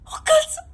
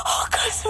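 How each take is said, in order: First: Panicked cry. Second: Gasped under the breath; breathless whisper. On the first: Panic rising. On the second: Panic, whispered. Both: Acted.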